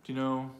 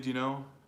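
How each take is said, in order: Both takes have the same delivery.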